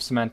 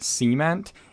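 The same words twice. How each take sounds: First: The word is said in a general accent. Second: The word is said in a Southern accent.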